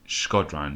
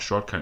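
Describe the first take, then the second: First: The name is said with its consonants in order. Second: The name is said with the consonants swapped. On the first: The speaker calls it right. "Let's have a read of his name properly" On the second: The speaker calls it wrong. "I keep saying Shrodkan. It's not Shrodkan"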